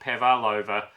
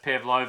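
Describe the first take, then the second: First: It has an extra vowel in the middle. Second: It has no extra vowel in the middle. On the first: The speaker calls it wrong. "and not" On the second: The speaker calls it right. "was pronounced"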